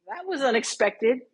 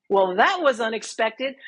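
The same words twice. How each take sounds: First: Deadpan understatement. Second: Dry, matter-of-fact, a touch of a rise at the end; deadpan understatement. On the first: Shown as a demonstration. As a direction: show the look that goes with a calm, awkward line. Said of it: "goes like this". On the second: Retold or imitated. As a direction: play it as a polite, awkward understatement. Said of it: "with that exact tone".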